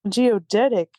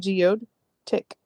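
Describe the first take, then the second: First: It is said smoothly as one word. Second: It is split into 'geode' and 'tick'. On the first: The speaker calls it right. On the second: The speaker calls it wrong.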